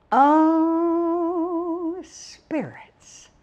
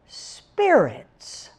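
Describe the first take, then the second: First: A high "oh", then "spirits" whispered; hushed reveal. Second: Said in the usual way. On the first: Acted. To the audience, teasing the topic, whispered. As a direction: breathe "spirits" out like a secret.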